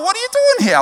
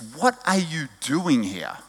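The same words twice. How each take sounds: First: It sounds delighted and pleasantly surprised. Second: It sounds stern and challenging, like a rebuke.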